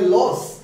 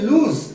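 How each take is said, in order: First: It is said like 'loss', short vowel and 's'. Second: It is said like 'looz', long vowel and 'z'. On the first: The speaker calls it wrong. "Maximum ভুল উচ্চারণ করে লস" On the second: The speaker calls it right. "Verb ফর্মে লুজ"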